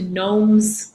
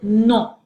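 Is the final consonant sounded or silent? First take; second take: sounded; silent. First: The final consonant is pronounced. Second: The final consonant is silent. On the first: The speaker calls it wrong. "as opposed to noms" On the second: The speaker calls it right. "notice I pronounced it non"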